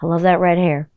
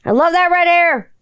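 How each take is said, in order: First: Said in the usual way. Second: High, put-on exclamation; high-pitched gush. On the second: Gushing over red-haired Spice Girl, high put-on voice. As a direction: gush it in a much higher voice.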